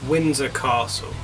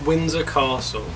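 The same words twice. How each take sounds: The two takes are said the same way.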